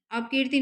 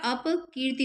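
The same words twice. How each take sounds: First: अपकीर्ति run together as ap-kirti; wrong form. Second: अपकीर्ति split as apa, then kirti; correct form. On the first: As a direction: say अपकीर्ति with ap closed straight onto k. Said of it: "अपकीर्ति नहीं होता". (अपकीर्ति, अप को कीर्ति से सटाकर) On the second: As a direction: release the p of अपकीर्ति with a short vowel. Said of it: "अपकीर्ति होता है". (अपकीर्ति, अप के बाद हल्का ठहराव) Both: Shown as a demonstration.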